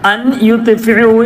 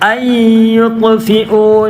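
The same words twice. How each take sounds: First: The n is pronounced clearly before the next word. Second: The n merges into the following y sound. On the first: The speaker calls it wrong. "എന്ന് പറയരുത്" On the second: The speaker calls it right. "നൂന് വാവ് മീമ് യാ എന്നീ അക്ഷരങ്ങളാണ് വന്നതെങ്കിൽ"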